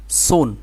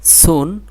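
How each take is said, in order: First: সুন with a thick, heavy s; thick letter sound. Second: সুন with a thin, light s, higher; thin letter sound. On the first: Teacher repeating the comparison for students, thick s in সুন. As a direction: make the s of সুন full and heavy. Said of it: "এটা thick". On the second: Teacher repeating the comparison for students, thin s in সুন. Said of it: "এটা thin". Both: Shown as a demonstration.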